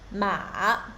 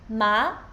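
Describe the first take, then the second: First: The pitch dips low, then rises again. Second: The pitch rises from middle to high. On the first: "the third tone starts low and deep down, and then rise again" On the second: "So second tone goes up"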